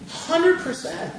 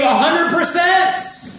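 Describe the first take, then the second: First: "Hundred percent" slow and high, without the loudness; emphatic repeat. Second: "hundred percent" pitched high and loud; emphatic climax. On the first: Preacher repeating the widow's gift, slow emphasis. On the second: Preacher on the widow's gift, emphatic. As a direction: drive "hundred percent" home, voice raised. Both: Real, not acted.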